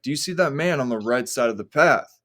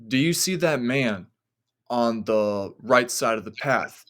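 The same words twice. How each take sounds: First: Said in the usual way. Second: Put-on measured, suspenseful quoting of the girlfriend; retold uneasy question. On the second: Girlfriend's eerie question, told slowly.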